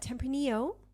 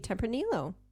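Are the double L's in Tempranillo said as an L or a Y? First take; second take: Y; L. First: The double L is said like a Y. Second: The double L is said as an L.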